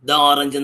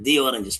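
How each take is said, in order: First: 'The' is said with a short 'thuh' vowel. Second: 'The' is said with a long 'thee' vowel. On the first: The speaker calls it wrong. "ദ orange എന്ന് പറയത്തില്ല" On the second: The speaker calls it right. "Vowels കൊണ്ട് ആരംഭിക്കുന്ന വാക്കുകൾക്ക് പുറയിൽ ഉപയോഗിക്കുമ്പോൾ ദി എന്ന് പറയും"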